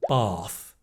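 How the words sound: It is said in a southern English accent. "in the south of England"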